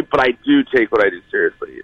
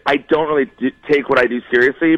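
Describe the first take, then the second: First: "do" stressed, falling at the end. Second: "don't" as the strongest word, rising at the end; stress on DON'T. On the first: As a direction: punch the first "do" as a contradiction. Reverses the denial just made. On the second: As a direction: lean on "don't" in the denial. Contrasts don't with do. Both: Real, not acted.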